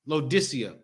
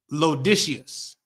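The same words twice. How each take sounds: First: Said in the usual way. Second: Slow, halting "Laodiceus" with an -us ending; drawn-out wrong try at "Laodiceus"; mispronounced Laodicea. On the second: Shown as a demonstration. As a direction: stumble through "Laodiceus" as a misreading.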